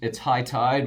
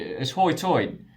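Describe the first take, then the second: First: The vowels sound like standard 'high tide'. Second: The vowels sound like 'hoy toyed'.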